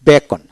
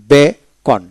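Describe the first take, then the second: First: Said in the usual way. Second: beacon split as be, pause, kon; syllable by syllable. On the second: Shown as a demonstration. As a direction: teach beacon in two separate pieces. Teacher breaks word, then joins it.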